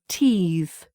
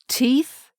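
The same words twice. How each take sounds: First: The final th sound is voiced. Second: The final th sound is voiceless. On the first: It is used as a verb. "which is the verb" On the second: It is used as a noun. "which is the noun"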